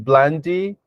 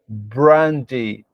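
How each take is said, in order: First: The second sound is an L. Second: The second sound is an R. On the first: The speaker calls it wrong. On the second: The speaker calls it right.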